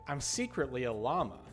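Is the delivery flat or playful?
playful. The voice is lively and shows it's a joke. The speaker signals that it is a joke.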